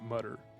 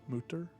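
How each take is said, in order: First: The word is said with an English-style pronunciation. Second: The word is said with a German-style pronunciation. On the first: "In English, you'd pronounce it Mutter" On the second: "is that how you say it?"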